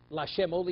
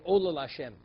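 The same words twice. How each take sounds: First: Said in the usual way. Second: "Ola" said first with a firm falling stress. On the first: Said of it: "you don't say Lashem Ola". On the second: Shown as a demonstration. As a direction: lean on "Ola", then "Lashem" lightly. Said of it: "you say Ola Lashem".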